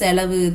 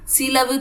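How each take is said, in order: First: The first vowel sounds like 'e'. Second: The first vowel sounds like 'i'. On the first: The speaker calls it right. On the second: The speaker calls it wrong.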